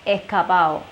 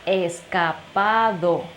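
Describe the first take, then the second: First: The d sound is dropped, joining the final vowels. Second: The d sound before the last vowel is pronounced. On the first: "in Cuban slang, we say escapao" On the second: "In this case, escapado"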